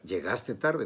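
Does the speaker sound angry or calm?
angry. It is said in an angry tone.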